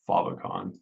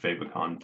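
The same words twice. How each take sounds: First: It is said in a fancy, sophisticated-sounding way. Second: It is said in a plain, Midwestern-sounding way. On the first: The speaker wants to sound refined. "If we want to be fancy, we're going to call it favicon" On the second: The speaker sounds like someone from the Midwest. "Favicon sounds like I'm from the Midwest"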